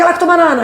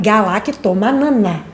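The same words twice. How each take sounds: First: The word is said at normal speed. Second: The word is said slowly and deliberately.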